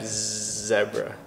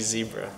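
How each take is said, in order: First: The first syllable is said like 'zeb'. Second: The first syllable is said like 'zee'. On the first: The speaker calls it right. "So Zeb zebra" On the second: The speaker calls it wrong. "Not Z zebra"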